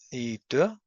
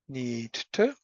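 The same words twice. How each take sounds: First: The t at the start of 'to' is dropped. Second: The t at the start of 'to' is pronounced.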